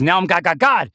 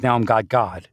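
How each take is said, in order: First: Pitched up, rising on each God; growing proclamation. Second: Said in the usual way. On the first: Retold or imitated. Quoting God as he grows bigger, rising. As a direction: build it up higher. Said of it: "This is". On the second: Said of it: "God says".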